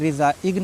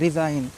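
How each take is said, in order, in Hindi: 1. इस शब्द में g की आवाज़ बोली जाती है। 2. इस शब्द में g साइलेंट है।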